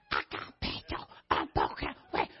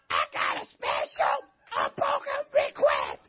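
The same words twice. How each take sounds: First: Breathy, voiceless whisper of the request; mock whisper. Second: Very high, slow, strained mock voice; mock squeaky request. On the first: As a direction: whisper it like a secret. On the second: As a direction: squeak the request like a timid churchgoer. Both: Shown as a demonstration. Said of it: "little teaching lesson".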